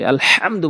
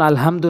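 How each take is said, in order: First: The h sound is strong and pressed. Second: The h sound is light and unpressed. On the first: The speaker calls it right. "আলহামদু বলতে হবে" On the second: The speaker calls it wrong. "আমরা যেন আলহামদু না বলি"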